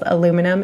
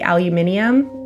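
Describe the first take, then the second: First: It is said in the Canadian pronunciation. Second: It is said in a non-Canadian pronunciation. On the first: "We say it as aluminum in Canada" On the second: "We definitely don't say it like that"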